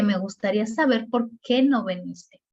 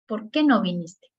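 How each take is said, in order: First: «por qué no viniste» dentro de una frase, sin tono interrogativo; pregunta indirecta. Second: «¿Por qué no viniste?» como pregunta suelta que baja al final; pregunta directa. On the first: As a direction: formula la duda como enunciado, con peso en «no». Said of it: "pero de manera indirecta". (pregunta indirecta, como afirmación) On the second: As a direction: pregunta directamente, con peso en «no». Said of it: "Estamos ante una pregunta directa". (pregunta directa, final descendente) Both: Shown as a demonstration.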